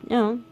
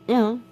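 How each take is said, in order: No difference in how they are said.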